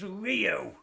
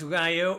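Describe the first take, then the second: First: The first vowel sounds like 'ee'. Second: The first vowel sounds like 'eye'. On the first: The speaker calls it right. "The I is always pronounced E" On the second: The speaker calls it wrong. "it's not"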